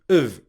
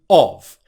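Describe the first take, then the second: First: The word has a schwa vowel. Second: The word has a full vowel. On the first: "of also becomes a schwa sound" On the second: "normal pronunciation"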